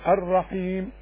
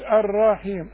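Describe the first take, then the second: First: No extra vowel sound is added. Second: An extra drawn-out vowel sound is added. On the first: The speaker calls it right. "لا، الرحيم" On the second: The speaker calls it wrong. "ما تقولش الرحيم شوف انت بتحط لها حتة الف"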